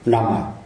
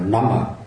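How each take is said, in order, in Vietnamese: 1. Từ này kết thúc bằng âm tiết 'ah' mở. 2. Từ này kết thúc bằng âm tiết 'ah' mở.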